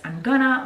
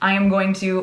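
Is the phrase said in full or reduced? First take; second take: reduced; full. First: The words are contracted and run together. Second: Each word is said fully and separately. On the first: "as I'm gonna" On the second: "we often pronounce I am going to"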